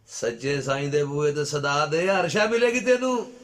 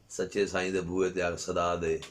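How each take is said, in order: First: Slow call building to a high, loud cry; loud preacher's appeal, pitch soaring by the end; rising exhortation. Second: Said in the usual way. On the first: Real, not acted. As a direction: climb steadily into full-voiced preaching.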